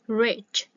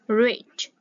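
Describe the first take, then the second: First: The vowel is a short, lax ih sound. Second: The same.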